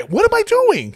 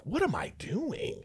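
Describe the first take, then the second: First: Exasperated. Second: Slow, high whisper to himself; whispered self-doubt. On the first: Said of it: "same words repeated aloud". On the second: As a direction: breathe it to yourself slowly. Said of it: "I think to myself". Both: Retold or imitated.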